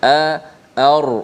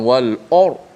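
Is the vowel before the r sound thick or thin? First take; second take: thin; thick. First: The vowel before the r sounds thin. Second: The vowel before the r sounds thick. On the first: The speaker calls it right. "Hamzah tu tak tebal" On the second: The speaker calls it wrong. "bukan wal or. Oh dah dah tebal"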